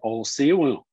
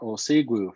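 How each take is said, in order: First: The last syllable begins with a W sound. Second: The last syllable begins with a G sound. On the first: "You can also say ol si wu" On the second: "or ol si gwu for just good"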